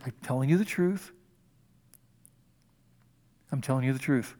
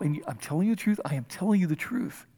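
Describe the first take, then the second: First: Hushed and earnest. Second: Soft, weighted repeat on telling; solemn emphasis. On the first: Preacher to congregation, a soft, solemn repeat. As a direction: lean in and let the truth land. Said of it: "Don't rush through this". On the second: Jesus stopping everything to teach Nicodemus, hushed and firm. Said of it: "Okay, everything stop". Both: Shown as a demonstration.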